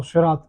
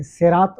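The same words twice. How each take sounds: First: Slow شراط with a heavy, emphatic Arabic saad; heavy saad pronunciation. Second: Slow صراط with a plain, light s like seen; light seen pronunciation. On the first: Teacher recapping the two readings, شراط with heavy saad. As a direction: say شراط slowly, its first consonant thick and dark. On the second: Teacher recapping the two readings, صراط with light seen. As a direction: say صراط slowly, opening on a thin s. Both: Shown as a demonstration. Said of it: "تو آپ کو دو طریقے آتے ہیں".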